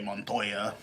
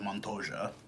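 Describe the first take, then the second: First: The middle consonant sounds like an English Y. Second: The middle consonant sounds like an English J. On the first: This is how a Mexican speaker says the name. "if I show the name to somebody that's Mexican, they're going to say Montoya" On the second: This is how an Argentinian speaker says the name. "for Argentinians, the Y is pronounced like a J"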